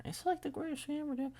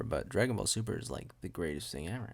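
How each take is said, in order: First: Very high, soft, quicker squeak; squeaky gushing. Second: Said in the usual way. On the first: Pretend. Gushing over a favourite show, squeaky falsetto. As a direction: gush in a tiny falsetto. Squeaky repeat of own praise.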